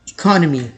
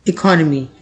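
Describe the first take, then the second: The two takes are said the same way.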